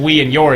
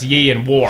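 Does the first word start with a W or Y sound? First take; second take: W; Y. First: The first word starts with a W sound. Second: The first word starts with a Y sound. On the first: "instead of we and your" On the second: "W is pronounced like a Y and Y is pronounced like W"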